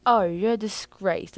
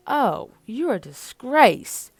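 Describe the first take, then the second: First: Slow British accent demo; British accent, lightly done; touch of British. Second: Slow, loud British disdain; slow posh British scoff; British accent. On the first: Shown as a demonstration. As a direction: show the British touch slowly. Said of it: "a little touch of British". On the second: Acted. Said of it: "Mikhail is freaking British".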